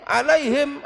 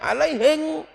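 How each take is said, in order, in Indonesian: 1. Kata itu berakhir dengan bunyi m. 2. Kata itu berakhir dengan bunyi ng.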